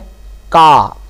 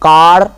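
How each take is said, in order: First: The word ends without an r sound. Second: The word ends with an r sound. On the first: "इस का को हम अकेले पढ़ेंगे तो इसका रे नहीं पढ़ा जाएगा" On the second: "इसके बाद यदि कोई वाउल साउंड यदि आता है तो इसको रे को है वो पढ़ना पड़ेगा"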